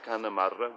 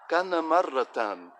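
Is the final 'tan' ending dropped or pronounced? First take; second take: dropped; pronounced. First: The phrase ends without the 'tan' syllable. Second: The phrase ends with a full 'tan' syllable. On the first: "We don't have to pronounce this last um, fetain here" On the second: "And that's just very formal"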